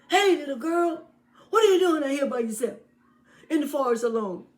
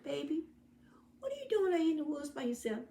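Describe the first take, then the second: First: High, loud, fast sly wolf calling out; a loud, high wolf luring the girl. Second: High, fast, soft concerned man; a caring hunter questioning the lost girl; gentle hunter. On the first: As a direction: hail her brightly like a sneaky wolf. Wolf greets girl in forest. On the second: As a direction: ask her kindly like a worried rescuer. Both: Acted.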